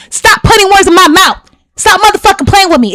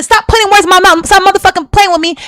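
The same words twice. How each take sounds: First: Raised, heated retelling of her own outburst; retold angry demand. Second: Repeating the heated words, pitched high; retold angry demand. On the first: Woman retelling her heated demand to the podcast host, angrily. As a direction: snap it back like you did before walking out. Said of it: "what was I saying?". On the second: Woman repeating the exact words she said before leaving, heated. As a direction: hammer the same angry line home again. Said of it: "I said".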